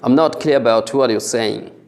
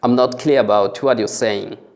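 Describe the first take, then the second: No difference in how they are said.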